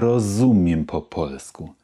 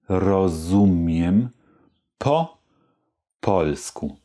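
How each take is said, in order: First: The phrase is spoken at its fastest. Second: The phrase is spoken slowly. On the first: "Und noch etwas schneller" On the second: "Also nochmal langsam"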